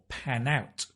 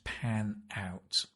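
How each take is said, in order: First: The n links straight into out. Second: The two words are said separately.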